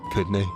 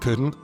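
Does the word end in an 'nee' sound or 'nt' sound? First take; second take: nee; nt. First: The word ends with an 'nee' sound. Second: The word ends with an 'nt' sound.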